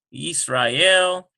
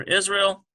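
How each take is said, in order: First: Israel said slowly as "yees-rah-EL"; Hebrew pronunciation. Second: Said in the usual way. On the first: Shown as a demonstration. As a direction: say Israel the Hebrew way, ees-rye-EL. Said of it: "So in this chapter". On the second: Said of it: "for Israel".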